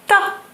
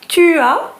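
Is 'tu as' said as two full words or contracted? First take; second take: contracted; full. First: The words are squeezed into one syllable. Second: Both words are said in full. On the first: "becomes ta" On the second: "Tu as becomes ta"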